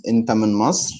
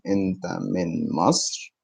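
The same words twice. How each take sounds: First: Said in the usual way. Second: "أنت من مصر" slowed down, softer and lower. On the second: Shown as a demonstration. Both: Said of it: "Are you from Egypt?".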